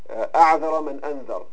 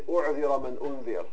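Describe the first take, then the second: First: The verbs begin with an 'a' vowel. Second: The verbs begin with a 'u' vowel. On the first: Whoever warned first has left no excuse. The speaker calls it right. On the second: Anyone who has been warned will be excused. The speaker calls it wrong. "it's commonly mispronounced by Arabs and by some speakers. Sometimes they say"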